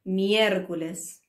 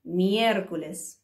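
First: Miércoles with stress on the é; teacher stressing the accented letter. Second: Miércoles with the é stressed, for repeating; teacher modelling for the class to repeat. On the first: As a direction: lean on the é in Miércoles. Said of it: "kind of stress that particular letter". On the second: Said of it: "Repeat after me". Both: Shown as a demonstration.

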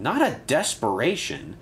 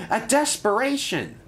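First: DESPERATION said as a correction, moderately raised, falling; correcting stress. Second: DESPERATION proclaimed very high, falling at the end; eager wrong word. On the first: Thomas corrects Percy, DESPERATION firmly dismissed with falling tune. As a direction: reject the word DESPERATION with patient emphasis. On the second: Percy proposes the wrong word, DESPERATION cried high and eagerly. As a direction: announce DESPERATION proudly, pitched way up. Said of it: "It's a deputation, not a desperation". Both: A narrator's reading.

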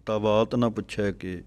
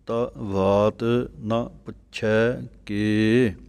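First: ਤਾਂ ਵਾਤ ਨਾ ਪੁੱਛੈ ਕੇ run together with no gaps; wrong phrasing. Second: ਤਾਂ ਵਾਤ ਨਾ ਪੁੱਛੈ ਕੇ said slowly, each word set apart; separated words. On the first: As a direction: blur the words into one run as the wrong example. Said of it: "ਇਸ ਤਰ੍ਹਾਂ ਨਹੀਂ ਬੋਲਣਾ ਕਿ". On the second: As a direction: space out every word, slow and careful. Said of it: "ਨਖੇੜ ਕਰਕੇ ਅਲੱਗ-ਅਲੱਗ ਬੋਲਣਾ ਹੈ". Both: Shown as a demonstration.

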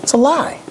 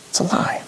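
First: Said in the usual way. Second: Hushed, voiceless whisper. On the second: Real, not acted. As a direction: drop to a whisper to drive it home. Preacher repeats it in a whisper.

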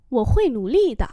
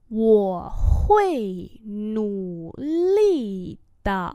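First: Said in the usual way. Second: Wo hui nú lì de syllable by syllable; slow demonstration. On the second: Shown as a demonstration. Teacher repeats a sentence for learners, very slowly. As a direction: draw out Wo hui nú lì de.

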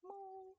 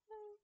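First: High playful moo; cow moo. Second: Said in the usual way. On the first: Pretend. Petting the cow in game, high silly moo. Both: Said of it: "Good cow".

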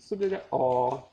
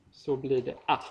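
First: A held long, as the Swedish back vowel. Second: A cut short, as the open front Swedish vowel. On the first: Lecturer contrasting vowel lengths, long back a in "så blir det a". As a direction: stretch the final a, dark and long as in "father". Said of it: "när det är långt". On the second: Lecturer contrasting vowel lengths, short open a in "så blir det a". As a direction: end on a brief, open a. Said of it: "och när det är kort". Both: Shown as a demonstration.

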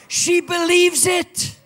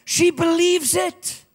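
First: Believes stretched, high and loud, slow; stress on believes. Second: She lifted, slow and loud, ending on a rise; stress on she. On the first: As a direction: lean hard on believes, slowly. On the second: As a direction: hit the word she, then rise. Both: Shown as a demonstration.

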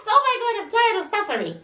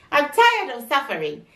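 First: Exasperated outburst. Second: Said in the usual way. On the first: Real, not acted. Exasperated burst, much higher.

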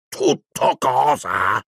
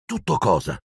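First: Slow, higher, booming outraged question; stretched-out roar of indignation; Hagrid, thundering. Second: Said in the usual way. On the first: A narrator's reading. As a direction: draw each word out in thunderous disbelief. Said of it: "tuonò Hagrid". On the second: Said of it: "chiese Harry".

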